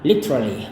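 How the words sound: It is said in a British accent.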